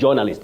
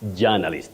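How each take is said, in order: First: The first syllable sounds like 'jaw'. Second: The first syllable sounds like 'ja'. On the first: The speaker calls it wrong. "That jaw is wrong" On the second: The speaker calls it right. "It's ja"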